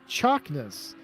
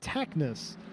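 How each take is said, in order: First: The name begins with a ch sound. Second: The name begins with a plain t sound. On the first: The speaker calls it right. "meaning it has a ch sound" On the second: The speaker calls it wrong. "I would typically pronounce this name"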